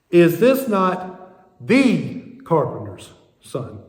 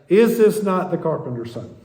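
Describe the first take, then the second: First: It is read with heavy stress on 'the'. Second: It is read casually, with 'the' unstressed. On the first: Of all carpenters, his father was the famous one. The speaker calls it right. "you read it this way" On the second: It refers to just some carpenter's son. The speaker calls it wrong. "we read it casually as"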